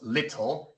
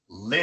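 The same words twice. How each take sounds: First: The t is a clear, hard t sound. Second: The t sounds like a quick tapped r. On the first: The speaker calls it wrong. "No decimos little" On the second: The speaker calls it right. "sino little"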